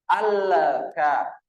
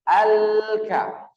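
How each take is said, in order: First: The L gets an echoing bounce before the K. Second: The L runs directly into the K, no bounce. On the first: The speaker calls it wrong. "tidak boleh terbaca dengan pangkulan. Al-ka. Al-ka. Ini salah" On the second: The speaker calls it right. "Al langsung masuk kaf"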